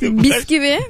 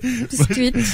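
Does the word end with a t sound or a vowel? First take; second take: vowel; t sound. First: The word ends on a vowel with no t. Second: The word ends with a final t sound. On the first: The speaker calls it wrong. "Genel olarak yanlış telaffuz edilen kelimeler neler?" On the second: The speaker calls it right. "Bisküvit oluyor"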